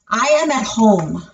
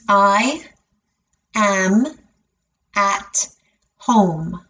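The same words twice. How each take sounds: First: The sentence is said at a natural speed. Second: The sentence is said very slowly, word by word. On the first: "I'll say it at a natural speed" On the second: "break it down and say it very slowly"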